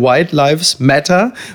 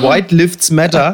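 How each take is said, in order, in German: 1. Das mittlere Wort klingt wie 'lives'. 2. Das mittlere Wort klingt wie 'lifts'. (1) "Sie wollten wohl sagen" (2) "es klang so, als hätten sie protestiert für weiße Fahrstühle"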